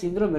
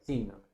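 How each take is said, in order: First: The stress is on the second syllable. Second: The stress is on the first syllable. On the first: The speaker calls it wrong. "no es síndrome" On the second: The speaker calls it right. "Síndrome es esdrújula"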